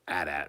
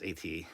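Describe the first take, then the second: First: It is said as two short words. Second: Each letter is said separately. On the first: "you don't say um, at at, really" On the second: "It's A T, A T"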